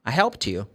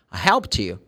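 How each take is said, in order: Both takes have the same delivery.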